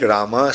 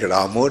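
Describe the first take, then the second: First: Rama ending on an open ah; Rama with a final a. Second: Ramo ending on a rounded oh; Ramo with a final o. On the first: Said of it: "sometimes it will sound like Rama". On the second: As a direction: say Ramo, closing on o. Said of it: "sometimes it will sound like Ramo". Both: Shown as a demonstration.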